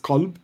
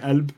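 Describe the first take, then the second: First: The word begins with a hard K sound. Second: The word begins with a glottal stop. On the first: This is the classical Arabic form. "The correct classical Arabic translation is Qalb with a hard K" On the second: This is the Levantine form. "In the Levant, where I'm from, it's a glottal stop, so we'd say Elb"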